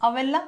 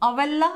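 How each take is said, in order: The two takes are said the same way.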